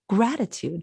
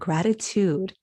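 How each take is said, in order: First: The stress falls on its usual syllable. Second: The stress is shifted to an unusual syllable. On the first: This is the normal way of saying it. "we usually say gratitude. That's the normal stress of the word" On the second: The word is being said poetically. "he changes the stress of the word"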